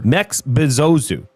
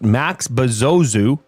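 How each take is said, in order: First: The first name has the vowel of bet. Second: The first name has the vowel of cat. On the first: The speaker calls it right. "it's Mex for sure" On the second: The speaker calls it wrong. "I've heard it pronounced Max Bezozu"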